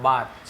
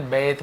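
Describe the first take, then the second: First: बाथ with an open "aah" vowel; long A vowel. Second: बेथ with an "ay" vowel; common variant pronunciation. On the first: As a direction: say बाथ as "baath". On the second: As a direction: say बेथ as "bayth". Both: Shown as a demonstration. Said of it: "जैसे बेथ बहुत से लोग बोलते हैं".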